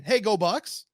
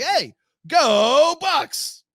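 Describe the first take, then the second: First: Said in the usual way. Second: Long, high, much louder drawn-out cheer; stretched stadium-style call of go Bucks; sign-off catchphrase yell. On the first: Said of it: "instead of just going". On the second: Retold or imitated. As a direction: belt it out like the show's sign-off. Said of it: "the way I do it at the end of the show".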